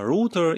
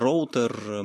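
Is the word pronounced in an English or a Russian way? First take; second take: English; Russian. First: It is pronounced the English way. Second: It is pronounced the Russian way. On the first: "По-английски там есть отличия" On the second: "буду произносить по-русски"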